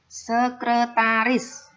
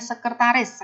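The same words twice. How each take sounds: First: The word is said in its standard form. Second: The word is said in its everyday colloquial form. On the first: The speaker calls it right. "Itu yang benar" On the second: The speaker calls it wrong. "Kita biasa ucapannya"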